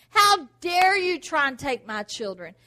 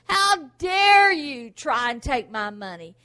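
First: Put-on loud with a crying edge on children; loud rebuke with a sob in it; tearful rebuke. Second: Slow and loud, hitting dare; loud slow How dare you; defiant rebuke. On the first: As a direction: voice breaking as you defend your children. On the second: Pretend. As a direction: challenge the thief. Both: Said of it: "when the devil comes to attack you".

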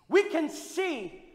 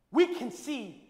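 Both takes have the same delivery.

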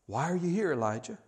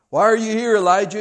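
First: Soft, quiet asking; gentle question. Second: Loud, high, jolting question; shaking him up. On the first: God asking Elijah quietly. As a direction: ask it softly. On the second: God shaking Elijah up with a loud call. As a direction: call it out to jolt him awake. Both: Acted. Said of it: "God is shaking Elijah up".

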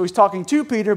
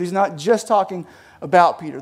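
First: "to" punched out against the other words; stress on "to". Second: "just" and "about" picked out for contrast; stress on "just" and "about". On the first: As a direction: lean hard on the word "to". Contrasts talking to with talking about. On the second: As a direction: lean on "just", then on "about". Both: Shown as a demonstration.

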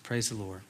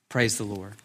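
First: Barely above a breath, very soft; hushed, reverent echo; near-whispered praise. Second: Softly, dropping the voice low; a soft worshipful aside; quiet praise. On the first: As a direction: let the second one almost vanish. Repeated praise, nearly whispered. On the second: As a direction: let it fall to a hushed praise. Quiet closing praise after climax. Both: Real, not acted.

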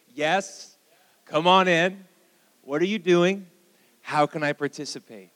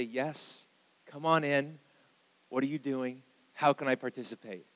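First: Loud, raised voice for all to join; leading a call-out. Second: Said in the usual way. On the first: Shown as a demonstration. Pastor getting the church to say it with him, loud call-out. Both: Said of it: "Say that with me".

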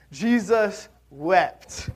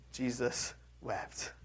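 First: "Jesus wept" slow and louder, leaning on both words; slow ringing "Jesus wept"; emphatic, slow. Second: Jesus wept, said slow and quiet, each word weighed; hushed reverent "Jesus wept"; solemn, slow. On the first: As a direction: proclaim "Jesus wept" slowly with force. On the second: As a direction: let "Jesus wept" fall softly and slowly. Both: Shown as a demonstration. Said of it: "so much power packed into those two little words".

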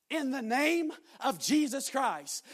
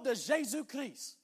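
First: "In the name of Jesus Christ" spelled out slowly, each word weighted; slow it down and lean on "name"; slow English rendering. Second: "de Jésus Christ" said the French way, zhay-ZOO kree; French prayer phrase. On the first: Preacher gives the congregation the English words, slowly. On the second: Preacher retells praying over the woman in French. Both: Retold or imitated.

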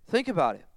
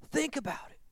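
First: Said in the usual way. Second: A breathy, higher, much softer repeat; soft echo. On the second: Shown as a demonstration. Preacher repeating softly to the congregation, quiet and higher. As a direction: let it sink in, hushed.

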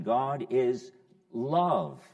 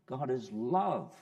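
First: God is love said slowly, each word weighed and firm; slow emphasis. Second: Said in the usual way. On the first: Shown as a demonstration. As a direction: lean hard on "God is love", very slow and louder. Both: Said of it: "moving along to our expression".

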